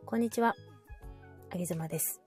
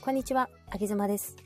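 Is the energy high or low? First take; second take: low; high. First: It is said with low, subdued energy. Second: It is said with normal, lively energy.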